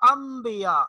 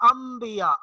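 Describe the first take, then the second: The two takes are said the same way.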